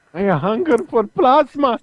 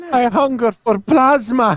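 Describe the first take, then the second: First: Whiny vampire voice. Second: High, slow, whining vampire; whiny vampire voice. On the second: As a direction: whine it like a cartoon villain. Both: Retold or imitated. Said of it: "that little whiny voice in my head".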